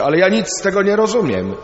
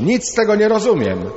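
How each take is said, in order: First: Higher, louder, fast frustrated cry; a pupil shouting in class that he understands nothing; boy shouting. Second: Much higher, louder desperate cry; a boy shouting louder still in the Torah class; shouting even louder. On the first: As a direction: blurt it out like a confused schoolboy. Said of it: "jeden nagle krzyczy". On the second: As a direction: push it up past the last outburst. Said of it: "ale głośniej jeszcze". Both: Retold or imitated.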